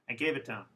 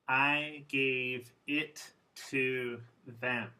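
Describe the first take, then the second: First: The small words are reduced and run together. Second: Every word is pronounced fully and clearly.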